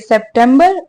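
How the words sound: The month name is said as English September. "English में बोलेंगे"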